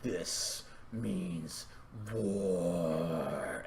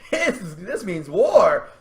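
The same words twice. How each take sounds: First: Very soft, deep, stretched-out words; low grim vow. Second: Mock war cry. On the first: Acted. Dash answers the plea for help, low grim vow. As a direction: sink low and let it linger. Same line redone low. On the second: Dash answers the plea for help, mock war cry. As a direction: declare it big, laughing into it.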